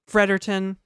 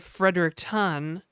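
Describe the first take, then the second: First: Some vowels are dropped, making it shorter. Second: All the vowels and syllables are pronounced. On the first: "New Brunswickers don't pronounce a lot of vowels" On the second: "Instead of Fredericton"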